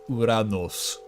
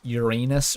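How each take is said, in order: First: It is said the older Greek-style way. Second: It is said the common English way. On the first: "it sounds cooler if you say it like that" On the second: "if it's not just Uranus or something"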